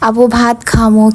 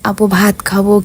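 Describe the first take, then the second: First: The last word is said with an 'm' sound. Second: The last word is said with a 'b' sound.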